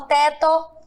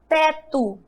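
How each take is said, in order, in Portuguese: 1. A vogal final soa como 'oh'. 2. A vogal final soa como 'oo'. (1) "Eu não falo" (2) "Eu pronuncio e sai o som do U"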